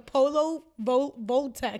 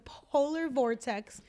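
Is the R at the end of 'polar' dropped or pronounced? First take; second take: dropped; pronounced. First: The R at the end of polar is dropped. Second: The R at the end of polar is pronounced.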